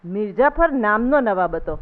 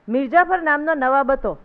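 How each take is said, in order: First: Slow, measured recital, મિર્જાફર drawn out and falling; calm, unhurried saying of મિર્જાફર નામનો નવાબ હતો; said slowly. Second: Loud, proud recital of the line મિર્જાફર નામનો નવાબ હતો; loudly announced, મિર્જાફર stressed. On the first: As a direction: savour each word as it finally sinks in. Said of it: "ધીરે રહીને બોલ્યો". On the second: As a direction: call it out like a boy reciting his lesson. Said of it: "મોટેથી બોલ્યો". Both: A narrator's reading.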